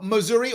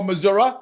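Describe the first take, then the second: First: "Missouri" said with a final ee sound; Missouri ending in -ee. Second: "Missouri" said with a final uh sound; Missouri ending in -uh. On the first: Host unsure how locals say it, "Missouri" ending in ee. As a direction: say "Missouri" as Mizz-OOR-ee. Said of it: "However you say it". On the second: Host offering the other local version, "Missouri" ending in uh. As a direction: say "Missouri" as Mizz-OOR-uh. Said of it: "I'm probably saying it wrong". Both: Shown as a demonstration.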